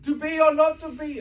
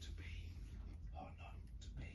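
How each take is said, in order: First: It is said very loudly. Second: It is said very quietly.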